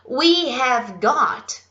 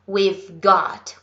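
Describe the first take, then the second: First: The words we have are said in full. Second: The words we have are contracted to we've.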